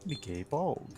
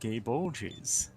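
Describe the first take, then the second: First: The second word ends with a hard g sound. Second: The second word ends with a j sound.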